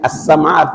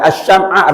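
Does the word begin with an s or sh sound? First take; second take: s; sh. First: The consonant is a plain s sound. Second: The consonant is a sh sound. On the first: It means hearing. The speaker calls it right. "pakai sin kecil" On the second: It means candle. The speaker calls it wrong. "Dibaca as-syam'a artinya lilin"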